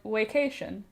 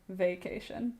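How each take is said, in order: First: The word begins with a W sound. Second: The word begins with a V sound. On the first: "So he'll be like" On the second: "And I'll be like"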